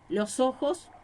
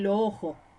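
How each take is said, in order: First: The final s sounds are clearly pronounced. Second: The final s sounds are aspirated or dropped. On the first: The speaker calls it right. "en vez de decir los ojos" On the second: The speaker calls it wrong. "me estoy aspirando las S finales de cada palabra"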